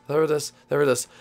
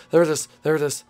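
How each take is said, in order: Both takes have the same delivery.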